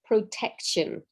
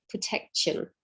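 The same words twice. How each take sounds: First: Protection slow, pro-tec-tion; pro, tec, tion, evenly spaced; slow syllables. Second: Protection whispered; whispered pro-tec-tion. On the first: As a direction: draw out protection beat by beat. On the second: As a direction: breathe protection with no voice. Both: Shown as a demonstration. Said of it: "three syllable words".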